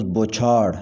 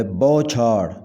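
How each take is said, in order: First: بوچھاڑ with a plain short "o": bo-chhaar; wrong pronunciation. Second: بوچھاڑ with an open first vowel: bau-chhaar; correct pronunciation. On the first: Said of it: "غلط تلفظ". (بوچھاڑ کا غلط تلفظ، "بو" سادہ واو کے ساتھ) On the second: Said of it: "صحیح تلفظ ہے". (بوچھاڑ کا صحیح تلفظ، "بَو" کھلی آواز میں) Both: Shown as a demonstration.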